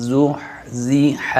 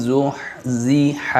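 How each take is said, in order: The two takes are said the same way.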